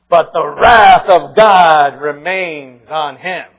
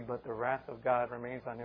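First: It is said with eager, satisfied glee. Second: It is said with grief and sorrow. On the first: The punishment is welcomed. The speaker calls it wrong. "we kind of read it like this. ... good, let's get some wrath out there" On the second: The punishment is lamented. The speaker calls it right. "it really should be, ... "Oh, woe. Woe unto them"

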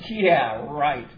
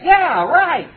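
First: It sounds sarcastic and disbelieving. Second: It sounds sincere and agreeing. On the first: The speaker does not agree at all. "what I actually mean is 100% the opposite" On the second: The speaker agrees. "I mean, I agree with you"

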